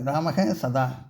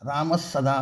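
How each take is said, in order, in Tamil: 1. இரண்டு வார்த்தைகளை மூச்சுக் காற்றுடன் கூடிய h ஒலி இணைக்கிறது. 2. இரண்டு வார்த்தைகளை s ஒலி இணைக்கிறது. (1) "அதே அதே மாதிரியே இருக்கும்" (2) "ஒரு இசு வரும்"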